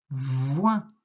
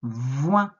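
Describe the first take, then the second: First: Voin said clearly, rising; dictation word. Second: Voin said louder, rising; dictation word. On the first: Teacher dictating voin to a pupil. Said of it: "tu écris". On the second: Teacher repeating voin in a dictation, louder. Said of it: "Je répète". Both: Shown as a demonstration.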